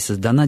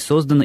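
First: The stress is on the last syllable. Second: The stress is on the first syllable. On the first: "и на окончание" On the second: "может принимать на себя ударение и на приставку"

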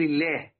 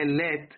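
First: The word ends with an 'h' sound. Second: The word ends with a 't' sound. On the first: "في الوقف عند بعض القراء وعند بعض قبائل العرب تقول الله، تحول التاء إلى هاء" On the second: "اللي هي اللات"

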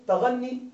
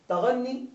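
Both takes have the same delivery.

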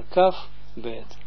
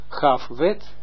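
First: The consonants are hard, as with the dot. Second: The consonants are soft, without the dot. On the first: The speaker calls it right. "maar kaf bet ... alsof puntjes dan daar wel daarin staan" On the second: The speaker calls it wrong. "Dus niet gaf wet"

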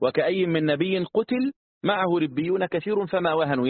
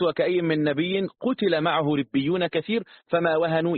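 First: There is a pause right after 'qutila'. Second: There is a pause right after 'kathir'. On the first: The prophet was killed, and his followers did not weaken. "يعني ما وهنوا بسبب أنه قتل" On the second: Many followers were killed, and the rest did not weaken. "لكن لو أنا قلت"

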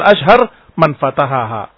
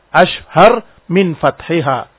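First: It is read with 'man' and 'fatahaha'. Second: It is read with 'min' and 'fathiha'. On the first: The speaker calls it wrong. "saya baca man fatahaha" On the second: The speaker calls it right. "harusnya ashhar min fathiha"

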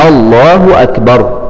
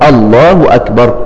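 Both takes have the same delivery.

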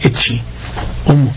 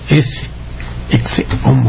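First: The middle of ecce sounds like ch. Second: The middle of ecce sounds like s. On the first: This is the late imperial and Italian usage. "ya para finales del Imperio ya se decía ecce homo ... el ace se pronuncia che" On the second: This is the usage kept in Spain. "donde mantuvo el sonido ese homo"

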